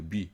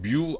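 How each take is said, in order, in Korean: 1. m 뒤의 모음은 'wi'처럼 나요. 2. m 뒤의 모음은 'yu'처럼 나요. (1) "위 아래 할 때 위 있죠. 여기서 이응 대신에 미음이 들어가는 겁니다" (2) "이건 뮤 아니에요"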